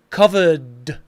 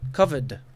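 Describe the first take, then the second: First: The word is said with exaggerated force. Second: The word is said lightly and naturally. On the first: The speaker calls it wrong. "with that strength that I just did" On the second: The speaker calls it right. "pronounce them more naturally"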